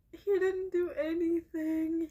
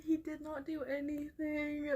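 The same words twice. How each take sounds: First: Tearful, leaning on HE; sobbing in protest for the cat; crying. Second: Quieter, spelling out did not do anything; firm insistence. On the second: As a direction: insist it flatly through tears. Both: Real, not acted. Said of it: "this makes me so devastated".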